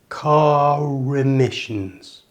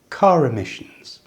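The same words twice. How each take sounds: First: The linked phrase is said slowly and carefully. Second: The linked phrase is said at full natural speed. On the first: "squash those words together so they run into each other like this" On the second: "And at full speed"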